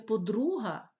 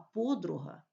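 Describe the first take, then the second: First: The stress follows the Russian stress pattern. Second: The stress follows the Ukrainian stress pattern. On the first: The speaker calls it wrong. "як кажуть в російській мові" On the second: The speaker calls it right. "а"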